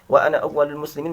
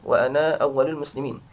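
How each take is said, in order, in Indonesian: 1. Huruf vokal terakhir pada ana itu pendek. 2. Huruf vokal terakhir pada ana dipanjangkan.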